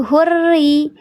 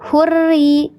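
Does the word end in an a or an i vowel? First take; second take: i; i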